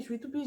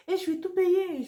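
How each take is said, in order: First: Said in the usual way. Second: Much higher and louder, outraged; indignant outburst. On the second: Real, not acted. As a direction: hammer home the unfairness. Indignant about paying for everything.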